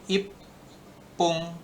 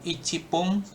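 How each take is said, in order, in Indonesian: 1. Angkanya disingkat, dengan huruf p digandakan. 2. Angkanya diucapkan penuh, ichi. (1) "tapi ipung" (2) "kalau bukan icipung"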